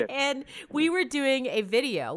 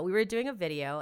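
First: Words spilling out through real laughter; laughing. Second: Said in the usual way. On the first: Real, not acted. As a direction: laugh while saying it, higher and louder. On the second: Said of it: "repeated after laughing".

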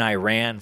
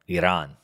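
First: Iran said eye-RAN, long I, flat a; Iran as eye-RAN, the American way; Americanized Iran. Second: Iran said ee-RAHN, open ah; Iran as ee-RAHN, careful correction; Iran with ee first and a broad rahn; corrected Iran. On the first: Real, not acted. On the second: Shown as a demonstration. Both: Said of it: "um, sorry".

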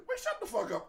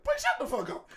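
First: Higher-pitched, restrained mock hush; serious hushing. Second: Very high-pitched mock hush; Santa. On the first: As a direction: imitate viewers seriously silencing someone. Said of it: "we just serious was like". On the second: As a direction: squeak out an imitated telling-off, amused. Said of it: "And then Santa was like".

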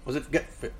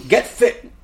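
First: Said in the usual way. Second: Loud, high laughing shout of the name; laughing announcement. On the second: Real, not acted. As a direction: blurt it out through a laugh.

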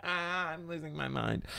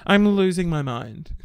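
First: Soft, slow, drained; defeated murmur. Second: Louder, firmer repeat; exasperated. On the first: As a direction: mutter it half to yourself. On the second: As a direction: say it again with force. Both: Real, not acted.

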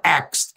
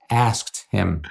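First: "axed" for "asked", k before s; the mistaken "axed", pitched higher; wrong pronunciation. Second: "asked" carefully sounded with s before k; slow, careful "asked him"; corrected pronunciation. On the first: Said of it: "It's not axed". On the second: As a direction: spell out every consonant of "asked", slowly. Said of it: "it's asked him". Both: Shown as a demonstration.

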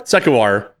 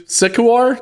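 First: Sekuar said low and firm, falling; settled Sekuar. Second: Sekuar tried out with a questioning high rise; unsure first try at Sekuar. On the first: Host settling on the commander's name, low falling Sekuar. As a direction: land the name Sekuar with a clear drop. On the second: Host fumbling the commander's name, questioning rise on Sekuar. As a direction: test the name Sekuar, pitch rising on the end. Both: Shown as a demonstration. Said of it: "the Sekuar it is".

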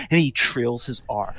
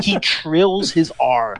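First: Said in the usual way. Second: Slow "trills" with a rolled R on "R"; mock-Scottish rolled R demo; trilled R. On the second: Shown as a demonstration. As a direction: roll the R in "R" theatrically.

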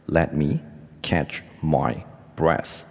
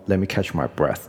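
First: "Let me / catch my / breath", with pauses between; slow phrase-by-phrase repeat. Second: Said in the usual way. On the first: Shown as a demonstration. Teacher repeating the example for learners, slow and segmented. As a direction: model it slowly, chunk by chunk.

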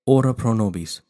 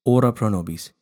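Both takes have the same delivery.

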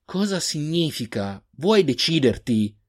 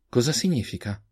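First: Higher, slower, snapping with impatience; impatient outburst. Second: Puzzled asking, mildly voiced; a hint of a curious boy's question. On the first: Reynal to the old man, demanding answers, impatient outburst. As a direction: lose patience with the old man's stalling. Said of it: "sbottò Reynal spazientito". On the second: Young man curious about the old man's riddle, mildly asking. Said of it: "rispose il ragazzo incuriosito". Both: A narrator's reading.

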